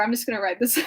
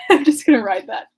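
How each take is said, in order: First: Said in the usual way. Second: Said through a laugh. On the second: Real, not acted. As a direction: laugh while you say it.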